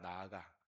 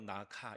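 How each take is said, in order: First: It is said with a Korean pronunciation. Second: It is said with a Thai pronunciation.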